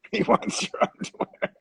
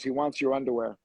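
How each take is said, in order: First: Higher, laughing through the words; breaking into laughter at own joke. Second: Said in the usual way. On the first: Real, not acted. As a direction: crack up repeating the punchline. Repeats punchline while laughing.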